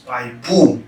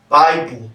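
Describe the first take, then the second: First: "Bible" as bi-BOOL, last syllable stressed; switched stress. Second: "Bible" as BI-ble, first syllable stressed; right syllable stressed. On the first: Teacher showing the mistake, "Bible" stressed on the wrong, second syllable. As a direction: drag out "Bible" with the weight on "ble". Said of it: "when you switch the stress". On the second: Teacher giving the correct word, "Bible" stressed on the first syllable. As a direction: punch the "Bi" of "Bible", let "ble" fall. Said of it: "Are you stressing the right syllable". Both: Shown as a demonstration.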